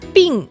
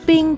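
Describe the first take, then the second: First: The pitch falls sharply from high. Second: The pitch stays high and level. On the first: Sick. "the fourth tone" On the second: Ice. "the first tone"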